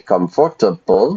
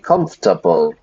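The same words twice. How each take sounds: First: Every syllable is said, giving four syllables. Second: The syllables are squeezed into three syllables. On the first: The speaker calls it wrong. "we don't say comfortable" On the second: The speaker calls it right. "We squeeze the syllables into three"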